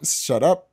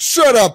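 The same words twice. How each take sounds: First: It is said in his usual, unmarked accent. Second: It is said in a put-on New York accent.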